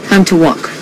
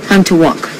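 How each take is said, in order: No difference in how they are said.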